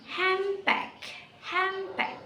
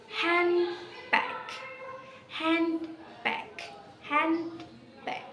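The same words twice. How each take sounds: First: "handbag" said as "hambag", N turned to M, pitched higher; assimilated handbag. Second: "handbag" with clear N and D, pitched higher; teacher spells out "handbag" fully; careful handbag. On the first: Teacher shows fast "handbag" with an M sound. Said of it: "if we say it fast". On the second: Teacher sounds out "handbag" slowly. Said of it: "that is". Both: Shown as a demonstration.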